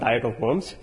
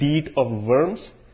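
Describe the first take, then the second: First: Worms begins with a W sound. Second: Worms begins with a V sound. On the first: The speaker calls it wrong. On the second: The speaker calls it right. "German pronunciation, when you have a W, is really a V sometimes"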